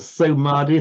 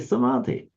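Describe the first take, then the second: First: The word 'so' keeps its full vowel. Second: The word 'so' is reduced and merged.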